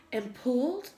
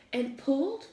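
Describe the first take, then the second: No difference in how they are said.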